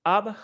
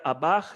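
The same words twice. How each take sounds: First: "Abach" with first syllable high and stressed; sharp high rise. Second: "abach" with the weight on "bach"; final-syllable stress. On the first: Linguist echoing the recording of "your name", sharp rise. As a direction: hit the "A" of "Abach" high and short. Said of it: "It's this very sharp rise". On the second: Linguist giving the word for stone, final stress. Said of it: "You hear stress on the final syllable". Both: Shown as a demonstration.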